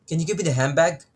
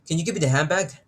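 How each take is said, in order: The two takes are said the same way.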